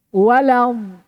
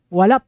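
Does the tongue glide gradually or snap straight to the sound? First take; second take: gradually; straight. First: The tongue glides slowly, leaving a slight gap. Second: The tongue moves at once, with no gap. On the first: The speaker calls it right. "Pasti ada jeda" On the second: The speaker calls it wrong. "tidak ada"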